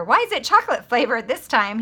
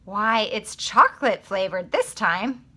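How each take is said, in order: First: Why is it chocolate flavored this time asked as a real question, stress on is, falling at the end; puzzled question leaning on is; read as a question. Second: Why, it's chocolate flavored this time said as a calm remark, slow, rising on this; a surprised statement with Why, as an exclamation, taken slowly; read as a statement. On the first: Teacher rereads the line another way, as a puzzled question. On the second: Teacher reading a line one way before her other reading, as a statement. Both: Shown as a demonstration.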